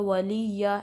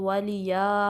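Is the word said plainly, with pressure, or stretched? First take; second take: with pressure; stretched. First: The middle consonant is pressed and doubled. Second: The ya sound is stretched out long. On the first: "वलिया ऐसे नहीं पढ़ना, यहाँ पे तशदीद नहीं है तो यहाँ पे प्रेशर नहीं डालना" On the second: "वलिया स्ट्रेच भी नहीं करना"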